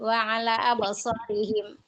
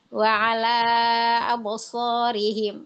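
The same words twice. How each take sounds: First: The long vowel is cut to two counts. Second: The long vowel is held for its full length. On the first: The speaker calls it wrong. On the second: The speaker calls it right.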